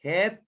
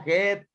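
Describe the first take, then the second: First: The vowel sounds like the one in 'head'. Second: The vowel sounds like the one in 'head'.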